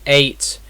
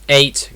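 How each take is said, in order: The two takes are said the same way.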